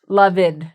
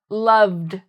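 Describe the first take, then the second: First: The ending is said as an extra syllable. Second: The verb ends with just a d sound. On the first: The speaker calls it wrong. "notice I'm not saying loved" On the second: The speaker calls it right. "just saying the verb and then pronouncing a d sound"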